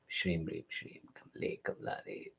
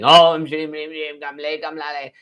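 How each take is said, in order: First: It is breathed almost silently with little sound. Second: It is shouted loudly and dramatically. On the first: The speaker calls it right. "mutter it silently in your mouth ... but sound is less" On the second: The speaker calls it wrong. "you start shouting it from the top of a building"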